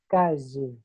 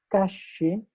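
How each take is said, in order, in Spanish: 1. La 'll' es un sonido 'sh' suavizado, más suave. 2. La 'll' es un sonido 'sh' fuerte y silbante. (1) "se atenúe" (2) "ese sonido que suena tan estridente frente al micrófono"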